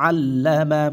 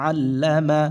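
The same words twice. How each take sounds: Both takes have the same delivery.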